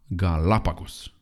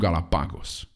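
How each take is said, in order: First: The stress is on the second syllable. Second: The stress is not on the second syllable. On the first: The speaker calls it right. "Accentul este pe al doilea A" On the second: The speaker calls it wrong. "nu Galapagos"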